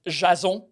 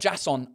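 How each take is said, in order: First: The name is said with French pronunciation. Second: The name is said with English pronunciation. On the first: The speaker calls it right. "in French is Jason" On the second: The speaker calls it wrong. "It's not Jason"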